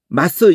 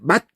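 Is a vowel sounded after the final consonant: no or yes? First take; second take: yes; no. First: A short vowel follows the final consonant. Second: The word ends on the consonant, no vowel. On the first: The consonant starts a new syllable. The speaker calls it wrong. "맛스 이렇게 읽지 말라는 거야" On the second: The consonant closes the syllable. The speaker calls it right. "그냥 맛 이렇게 읽으라는 거예요"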